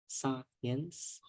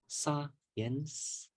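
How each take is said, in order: No difference in how they are said.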